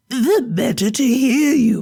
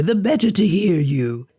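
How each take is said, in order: First: Higher sly granny voice; a wolf faking a sweet old woman; wolf as grandmother. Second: Said in the usual way. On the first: Acted.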